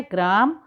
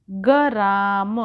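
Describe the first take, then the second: First: ग्राम with a tight gr, graam; ग्राम said correctly in one beat; correct cluster. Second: गराम very slow, ga-raam with an added vowel; गराम spelled out slowly the wrong way; wrong drawn-out pronunciation. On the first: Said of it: "शुद्ध शब्द होता है ग्राम". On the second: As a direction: stretch गराम slowly into two syllables. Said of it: "गराम नहीं होता है". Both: Shown as a demonstration.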